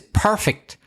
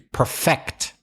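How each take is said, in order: First: The stress is on the first syllable. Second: The stress is on the second syllable. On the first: It is the adjective. "the adjective is perfect, where you stress the first syllable" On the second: It is the verb. "the verb to perfect. So stress the second syllable"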